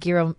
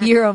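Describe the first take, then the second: First: The word begins with a hard G sound. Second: The word begins with a Y sound. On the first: The speaker calls it wrong. "I've been saying it wrong" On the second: The speaker calls it right. "But it starts with a G"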